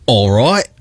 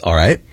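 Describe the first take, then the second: First: "All right" with an Australian accent. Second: Said in the usual way. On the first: Shown as a demonstration. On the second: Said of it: "Or should I say".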